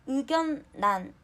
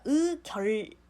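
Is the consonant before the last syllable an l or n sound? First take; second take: n sound; l sound. First: The last syllable starts with an n sound. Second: The syllables are joined by an l sound. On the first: The speaker calls it right. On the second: The speaker calls it wrong.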